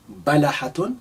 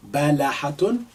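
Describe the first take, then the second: No difference in how they are said.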